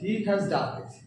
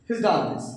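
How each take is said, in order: First: He has is said in full, slowly. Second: He has is contracted to he's, quickly.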